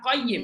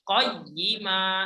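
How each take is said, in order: First: The word ends with a bare consonant sound. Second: The word ends with a long vowel sound. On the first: The speaker calls it wrong. "bukan qayyim atau iwaj. Salah" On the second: The speaker calls it right. "Harusnya seperti itu"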